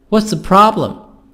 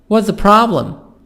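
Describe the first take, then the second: No difference in how they are said.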